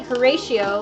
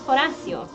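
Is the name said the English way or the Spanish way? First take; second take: English; Spanish. First: The name is said with an English pronunciation. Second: The name is said with a Spanish pronunciation. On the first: "like the Shakespearean version" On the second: "Because it's Spanish uh, pronunciation"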